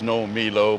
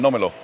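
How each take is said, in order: First: Three words are said as separate words. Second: Three words are run together as one. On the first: The speaker calls it wrong. "they don't say the three words no me low" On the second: The speaker calls it right. "They say"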